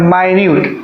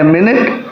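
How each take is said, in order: First: The first syllable sounds like 'my'. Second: The first syllable sounds like 'min'. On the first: It is an adjective meaning very small. "जैसे ही माइन्यूट बोलते हैं तो ये adjective हो जाता है" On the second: It is a noun for a unit of time. "इसको हम कह रहे हैं मिनट, मतलब घड़ी की सुई"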